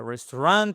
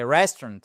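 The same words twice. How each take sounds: First: RESTAURANT stressed on the last syllable, rising; wrong stress. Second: RESTAURANT stressed on RES, falling away after; correct tonic stress. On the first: Teacher shows learners the mistake, end-stressed word. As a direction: push the end of RESTAURANT up, French-style. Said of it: "c'est pas". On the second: Teacher models the word for learners, front-stressed. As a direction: hit the first syllable of RESTAURANT and swallow the rest. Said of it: "c'est restaurant". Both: Shown as a demonstration.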